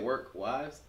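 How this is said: The voice rises at the end.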